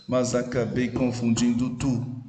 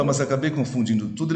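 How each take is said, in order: First: "Mas acabei confundindo tu" spaced out syllable by syllable; syllable counting. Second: Said in the usual way. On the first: Shown as a demonstration. Teacher counting nine syllables for the class, measured scansion of "Mas acabei confundindo tu". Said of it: "nove sílabas". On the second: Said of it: "Quando ele fala".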